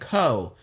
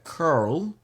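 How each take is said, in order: First: It is said in a British accent, no R. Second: It is said in an American accent, R curled.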